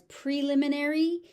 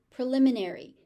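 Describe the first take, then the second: First: „preliminary“ starting with PREE; long-E in PREE; pree- pronunciation. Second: „Preliminary“ with PRI; pri- pronunciation. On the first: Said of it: "some people say pre". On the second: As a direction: start with a clear PRI. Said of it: "You may also hear this word pronounced as preliminary". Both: Shown as a demonstration.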